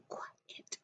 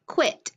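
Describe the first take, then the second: First: "quit" broken into sounds, qu, pause, it, whispered; sounding out. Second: Said in the usual way. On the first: Shown as a demonstration. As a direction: sound out "quit" softly in two separate parts. Sounding out a word for pupils.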